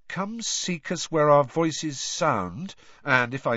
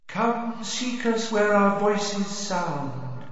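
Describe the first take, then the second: First: Said in the usual way. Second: Slow, high eerie chant; haunting voice. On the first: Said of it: "Harry repeats the song plainly". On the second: Acted. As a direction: sing it like a ghostly chorus. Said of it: "chorus of eerie voices singing".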